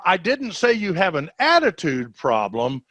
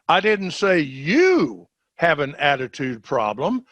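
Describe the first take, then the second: First: The stress is on "attitude". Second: The stress is on "you".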